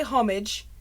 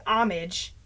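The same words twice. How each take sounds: First: "homage" as HOM-ij with h; British homage. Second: "homage" as AH-mij; American homage. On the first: Reporting how British people say it, "homage" as HOM-ij. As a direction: round the vowel in "homage", HOM-ij. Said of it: "British people say". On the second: Reporting how Americans say it, "homage" as AH-mij. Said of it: "Americans say". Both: Shown as a demonstration.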